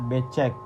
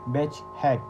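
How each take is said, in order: First: The word is said in plain Indonesian sounds. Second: The word is said with English-like sounds. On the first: The speaker calls it right. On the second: The speaker calls it wrong.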